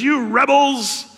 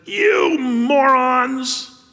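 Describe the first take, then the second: First: Loud, slow "You rebels" in a higher pitch; slow loud scolding; angry Moses. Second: Loud, slow, exasperated "You morons"; slow angry bellow; angry Moses. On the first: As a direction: rebuke the crowd sharply. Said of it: "he says". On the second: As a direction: spit out the insult as a fed-up leader. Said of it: "He calls them a bunch of morons". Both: Acted.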